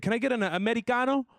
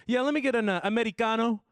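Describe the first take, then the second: First: Put-on higher, faster posh-kid voice, saying Americano as Amedicano; higher snooty rich kid repeat. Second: Put-on higher, louder posh-kid voice, saying Americano as Amedicano; a higher snooty rich kid voice. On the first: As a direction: toss off the order like a rich kid. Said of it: "He said". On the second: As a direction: play the entitled rich kid ordering. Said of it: "he said".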